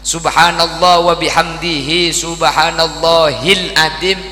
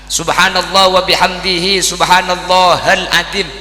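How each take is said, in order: First: The syllable before azim is said as 'hil'. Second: The syllable before azim is said as 'hal'. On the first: The speaker calls it right. "ini benar" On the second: The speaker calls it wrong.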